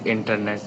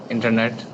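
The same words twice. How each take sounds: First: Internet with retroflex T, dropped final T; Indian accent internet. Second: Said in the usual way. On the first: Shown as a demonstration. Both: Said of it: "we say internet".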